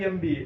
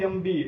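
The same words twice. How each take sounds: No difference in how they are said.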